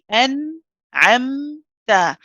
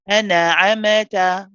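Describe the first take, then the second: First: The nasal sounds are held smoothly, medium length. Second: The nasal letters bounce with extra vowel sounds. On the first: The speaker calls it right. "we stay on both of them the same amount of time, which is not too long and not too short" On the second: The speaker calls it wrong. "We also don't bounce them"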